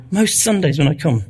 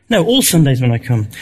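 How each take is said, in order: First: Said in the usual way. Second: All stressed as a correction. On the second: Real, not acted. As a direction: lean on the word all, firm and falling.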